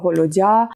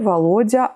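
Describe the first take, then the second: First: The name is said with French pronunciation. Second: The name is said with Russian pronunciation. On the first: "je dis à, à la française" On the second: "si je le dis avec la prononciation russe"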